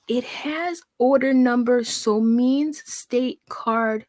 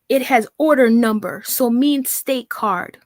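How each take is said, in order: First: Painfully slow, word-by-word read; squinting at nonsense, very slowly; very slow mock reading. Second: Slow, halting read of a garbled text; mocking her garbled writing. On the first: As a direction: crawl through the garbled sentence. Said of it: "let's try that again". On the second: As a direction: drag out every broken word. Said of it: "listen to how she writes".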